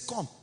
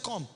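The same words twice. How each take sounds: First: It sounds pleased and impressed. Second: It sounds angry and displeased.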